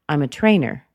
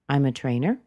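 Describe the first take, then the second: First: The pitch drops sharply at the end. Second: The pitch rises slightly at the end. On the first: It sounds strong and harsh. The speaker calls it wrong. "that's a little bit strong. That's a little bit harsh... not to drop too sharp" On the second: It invites the conversation to continue. The speaker calls it right. "It asks that we carry on the conversation. It's light, it's casual"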